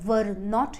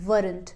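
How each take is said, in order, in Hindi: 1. यह दो पूरे शब्दों के रूप में बोला जाता है। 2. यह एक संक्षिप्त शब्द के रूप में बोला जाता है। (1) "और were not यूज करना है" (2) "जिसे आप प्रोनाउंस करेंगे weren't"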